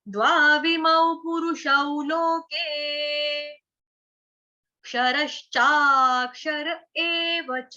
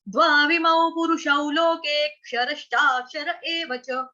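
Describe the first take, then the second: First: There is a pause between loke and kshara. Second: Loke runs straight into kshara without a pause. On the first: "अगर pause लिया तो कैसे बोलेंगे" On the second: "अगर नहीं लेंगे तो कैसे बोलेंगे"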